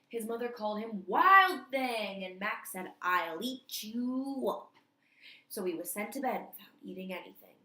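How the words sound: It is read excitedly, with lots of emotion.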